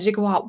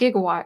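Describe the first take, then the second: First: The word begins with a soft J sound. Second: The word begins with a hard G sound. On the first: The speaker calls it right. "It's like a soft J, right? Yeah, it's a J" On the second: The speaker calls it wrong. "It's not Gigawatt"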